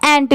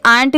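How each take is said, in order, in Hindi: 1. यह स्वर छोटा 'e' जैसा है। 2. यह स्वर खुला 'aa' जैसा है। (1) "एंट भी पढ़ सकते हैं" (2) "इसे आंट भी पढ़ सकते हैं"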